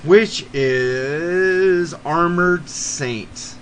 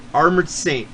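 First: Very slow, drawn-out announcer intro; dramatic band intro. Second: Said in the usual way. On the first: Acted. Podcast host unveiling his fourth band, drawn-out announcer voice. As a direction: stretch the band name out like a radio announcer.

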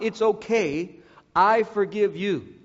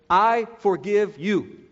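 First: It's okay said lightly, skating past the hurt; the wrong way, brushing off the apology; dismissive brush-off. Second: I forgive you slow and deliberate with weight on I; the right way to say it, each word given weight; plain sincere forgiveness. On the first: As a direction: wave it away as if it were nothing. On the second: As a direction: say I forgive you slowly and mean every word. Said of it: "Again, not, "It's okay". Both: Shown as a demonstration.

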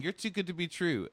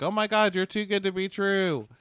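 First: Breathy repeat. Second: High gushing swoon; mock-gushing fangirl voice; gushing girlfriend. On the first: Retold or imitated. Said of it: "she keeps saying". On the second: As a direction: swoon over him, high and breathless with delight. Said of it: "And she's like".

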